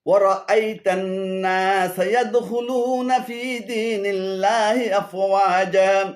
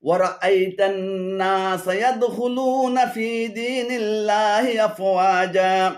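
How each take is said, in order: No difference in how they are said.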